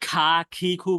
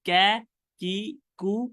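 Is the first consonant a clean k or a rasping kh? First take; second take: rasping kh; clean k. First: The consonant is a rasping kh sound. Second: The consonant is a clean k sound. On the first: The speaker calls it wrong. "খা, খি, খু বললে কিন্তু হবে না" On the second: The speaker calls it right. "আপনাকে ক্যা, কি, কু"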